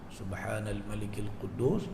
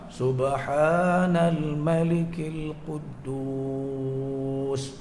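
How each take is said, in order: First: It is said softly. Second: It is said loudly with long drawn sounds.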